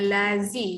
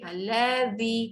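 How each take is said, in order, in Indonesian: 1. Konsonannya adalah bunyi 'z' yang mendengung biasa. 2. Konsonannya adalah bunyi 'th' yang lembut, seperti di 'this'. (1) "jangan lazi, jangan dekat dalam" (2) "keluarkan lidah"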